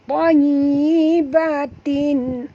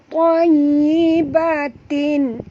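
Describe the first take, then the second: The two takes are said the same way.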